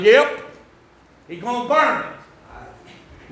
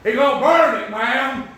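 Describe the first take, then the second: First: Slow Tennessee hillbilly drawl, "burn" drawn out. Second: A light Tennessee hillbilly drawl on "He gonna burn it"; blunt Tennessee country warning to the doctor. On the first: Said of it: "saying it like that". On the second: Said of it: "pull a little Tennessee hillbilly language". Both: Retold or imitated.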